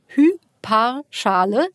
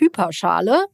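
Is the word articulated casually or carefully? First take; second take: carefully; casually. First: The word is articulated slowly and distinctly. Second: The word is said quickly and casually.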